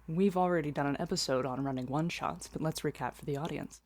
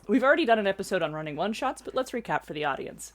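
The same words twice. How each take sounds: First: Slow, deep and carefully enunciated put-on voice. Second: Ordinary everyday voice at normal speed and pitch.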